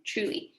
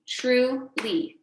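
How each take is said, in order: First: Said in the usual way. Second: "truly" broken into two beats, tru - ly; "truly" with a clear gap, tru, then ly; split into syllables. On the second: Shown as a demonstration. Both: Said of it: "Two syllables".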